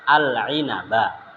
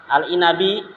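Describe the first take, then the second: First: The word ends with an a vowel. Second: The word ends with an i vowel. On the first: The speaker calls it right. "ya fathah" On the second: The speaker calls it wrong.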